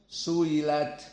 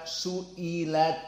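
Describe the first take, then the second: First: "su'ilat" with the hamzah eased into a y-like glide; tashil, hamzah softened. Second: "su'ilat" with a full glottal stop before the long i; hamzah jelas. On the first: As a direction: glide through "su'ilat" without a glottal stop. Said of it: "Bagaimana ditashil?". ("su'ilat" dengan hamzah lembut, tidak jelas) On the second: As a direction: articulate "su'ilat" slowly, hamzah fully sounded. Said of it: "Tidak jelas dibaca su'ilat". ("su'ilat" dengan hamzah yang jelas) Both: Shown as a demonstration.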